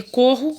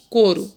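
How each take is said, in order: First: CORRO with an h-like double R; strong double R. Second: COURO said "coro", with a light tongue-tap R; single tapped R. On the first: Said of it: "desculpa. Aqui é corro". ("corro" com R forte) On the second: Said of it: "um R, ficou o quê?". ("couro" com R brando, soando "coro") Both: Shown as a demonstration.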